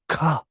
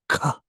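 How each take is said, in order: First: The consonant is released with a strong puff. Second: The consonant is released with a strong puff.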